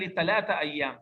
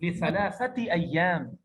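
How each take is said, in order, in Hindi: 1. यह बोलचाल का उच्चारण है, कड़े t ध्वनियों के साथ। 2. यह औपचारिक उच्चारण है, नरम ध्वनियों के साथ।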